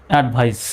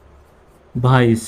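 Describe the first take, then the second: First: Said in the usual way. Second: advice stretched out very slowly, syllable by syllable; drawn-out teacher demo of advice; slow model word. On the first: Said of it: "same word repeated at normal pace". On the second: Shown as a demonstration. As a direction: say advice slowly for the class to copy. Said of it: "teacher models the word slowly".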